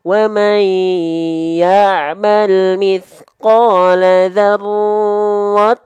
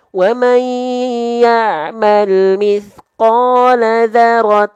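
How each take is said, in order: First: The 'r' is held for twice the length. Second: The 'r' is single, with no doubling. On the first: "ini roh tasdidnya ditahan dua harokat" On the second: "isyarat satu, itu rohnya tanpa tasdid"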